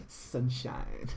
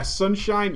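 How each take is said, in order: First: Soft, breathed-out, drawn name; sultry whisper. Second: Said in the usual way. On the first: Pretend. Streamer savouring a sexy name for the lady, whispered.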